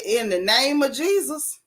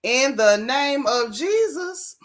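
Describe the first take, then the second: First: Said in the usual way. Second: Slow, stretched words with a rising finish; incredulous slow-motion quoting; drawn-out mock quote. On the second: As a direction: repeat it slowly, dragging out every word. Repeats quote slowly in disbelief.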